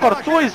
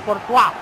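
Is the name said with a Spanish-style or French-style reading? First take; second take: Spanish-style; French-style. First: The name is read as if it were Spanish. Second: The name is said with a French-style ending. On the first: This is how the speaker used to say it. The speaker calls it wrong. "No le decía Courtois a ese pajero" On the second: This is how the name is really pronounced. The speaker calls it right. "pero se pronuncia Courtois"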